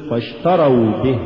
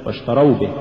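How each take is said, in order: First: Full واشتروا, then a separate به; separate words. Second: واشتروا به hurried into one word; words run together. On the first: Teacher models correct recitation, واشتروا apart from به. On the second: Teacher shows the mistake, واشتروا به run together. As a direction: shorten واشتروا into به. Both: Shown as a demonstration. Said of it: "ولا تقل".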